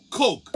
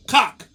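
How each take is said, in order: First: "Coke" with a long OH vowel; teaching pronunciation. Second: "Cock" loud, with a short open AH; mispronounced Coke. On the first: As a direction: blend it into "Coke", round O, for a pupil. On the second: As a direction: blurt "Cock", AH for OH, as the pupil. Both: Retold or imitated. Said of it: "teach ... how to say Coke".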